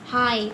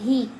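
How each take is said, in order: First: The vowel sounds like 'eye'. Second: The vowel sounds like 'ee'. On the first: The speaker calls it right. "लेकिन इसको हम पढ़ेंगे हाय" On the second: The speaker calls it wrong. "इसको हम ही नहीं पढ़ते, ही no"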